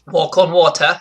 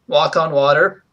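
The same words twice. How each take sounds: First: It is said in an imitated English accent. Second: It is said in the speaker's own American accent.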